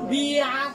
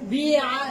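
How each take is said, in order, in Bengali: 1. প্রথম সিলেবলে একটি সামনের 'i' স্বরধ্বনি আছে। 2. প্রথম সিলেবলে একটি সামনের 'i' স্বরধ্বনি আছে।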